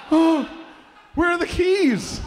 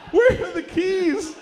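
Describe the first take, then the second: First: High, loud weepy imitation; mock crying. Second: Slow, very high loud wail; mock crying. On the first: Dad believing he got a Porsche, mock tearful cry. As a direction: wail it with hammed-up tears. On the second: Dad begging for the Porsche, exaggerated tearful wail. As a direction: drag it out as hammed-up sobbing. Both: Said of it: "He started crying immediately".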